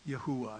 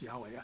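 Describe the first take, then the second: First: The name is said as three syllables, Yahuwah. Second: The name is said as two syllables, Yahweh. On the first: This is a less common but more likely pronunciation. "I think maybe the better way to pronounce this is Yahuwah" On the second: This is the usual, traditional pronunciation. "traditionally, typically, people would say the pronunciation is Yahweh"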